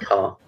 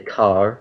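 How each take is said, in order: First: The final R is not pronounced. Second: The final R is clearly pronounced. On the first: "versus car" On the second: "they would say car, pronouncing the R"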